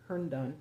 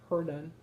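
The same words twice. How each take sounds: First: Herndon with both n sounds, HERN-dun; retry Herndon, sounding the n before the d; corrected place name. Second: Herndon with the first n swallowed, like "Herdon"; botched place name. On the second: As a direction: stumble on Herndon, dropping its first n. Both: Real, not acted. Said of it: "Don, whatever".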